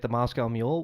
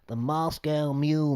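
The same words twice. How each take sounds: First: It is said in the speaker's normal accent. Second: It is said in a put-on foreign accent.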